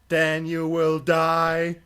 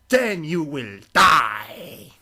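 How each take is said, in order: First: It is said in his normal voice. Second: It is said in a put-on Ganon voice.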